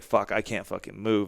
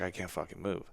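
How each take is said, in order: First: Said in the usual way. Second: Stunned quiet. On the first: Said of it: "It's like". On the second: Retold or imitated. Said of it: "I was just like".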